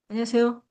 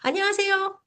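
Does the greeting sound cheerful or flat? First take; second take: flat; cheerful. First: The greeting sounds flat and unenthusiastic. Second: The greeting sounds warm and cheerful. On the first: The speaker is not glad to see you. The speaker calls it wrong. "안 반가운 목소리와 말투로" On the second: The speaker is glad to see you. The speaker calls it right. "뭔가 반갑게"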